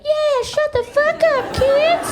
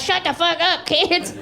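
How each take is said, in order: First: Very high, slow cartoon squeak; talking cigarette. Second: Mock screaming mom. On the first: Cigarette backing up mom, squeaky sidekick voice. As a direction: echo mom as her tiny cigarette sidekick. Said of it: "the cigarette would be like". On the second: Mom screaming at her kids, mock yell. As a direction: mimic a screaming mother without full volume. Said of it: "She'd just be screaming at us".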